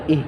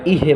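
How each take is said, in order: First: ইহ ending on h, no vowel; held jazm. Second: ইহে with an extra e vowel after h; released jazm, wrong. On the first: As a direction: hold ইহ closed on the breath. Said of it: "এটা ধরে রাখতে হবে". (জজম ধরে ইহ বলা) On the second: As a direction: let the h open into ইহে. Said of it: "ইহে বলা যাবে না". (জজম ছেড়ে ইহে বলা) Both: Shown as a demonstration.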